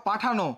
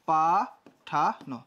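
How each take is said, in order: First: Said in the usual way. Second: পাঠানো very slowly as pa... tha... no; syllable-by-syllable pronunciation. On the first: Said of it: "এই দেখো পাঠানো". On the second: Shown as a demonstration. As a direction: sound out পাঠানো with long pauses between syllables. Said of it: "তাহলে কি হয়ে যাবে?".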